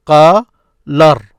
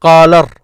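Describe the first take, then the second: First: "Qalar" split as qaa, pause, lar; broken into syllables. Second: "Qalar" loud, said as one connected unit; projected, linked "Qalar" ending on the R; syllables joined. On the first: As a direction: separate "Qalar" into two loud syllables. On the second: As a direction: run "Qalar" together without a gap. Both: Shown as a demonstration. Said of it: "This is what you hear".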